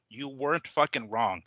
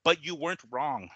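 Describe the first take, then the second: First: "You weren't fucking wrong" slowed, each word pressed; slow emphatic repeat. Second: Said in the usual way. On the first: Real, not acted. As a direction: lean hard on "fucking wrong", drawn out. Repeats point with more force.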